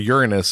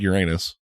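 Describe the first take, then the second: First: It is said in the textbook, formal way. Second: It is said in the everyday, common way.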